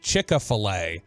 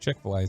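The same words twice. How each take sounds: First: It is said with a Southern US pronunciation. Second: It is said with a standard pronunciation. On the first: "How my southern butt says it" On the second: "instead of"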